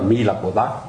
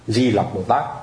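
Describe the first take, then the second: First: The name begins with an M sound. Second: The name begins with a D sound. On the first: This is the actual reading of the character. The speaker calls it right. "Chứ thật ra cái chữ của nó là Mi Lặc Bồ Tát" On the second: This is how people commonly read it. The speaker calls it wrong. "thì họ đọc là Di Lặc Bồ Tát"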